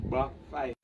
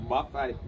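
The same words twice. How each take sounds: No difference in how they are said.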